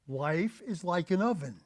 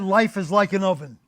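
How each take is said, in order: First: It is said slowly. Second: It is said at a normal speed.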